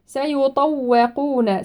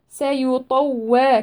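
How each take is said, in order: First: سيطوقون with a heavy ط and a light و, very slowly; سيطوقون with tafkhim on ط. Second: سيطوى with the و wrongly darkened like the ط, slowly; سيطوى, the wrong heavy waw; wrong rounded و. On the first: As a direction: stretch سيطوقون, thick ط, thin و. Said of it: "الطاء مفخمة". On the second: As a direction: demonstrate the mistake, dark و in سيطوى. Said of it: "ليس سيطوى". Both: Shown as a demonstration.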